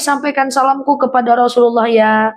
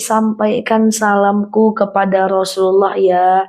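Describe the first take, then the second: First: The phrase is spoken at a normal pace. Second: The phrase is spoken very slowly.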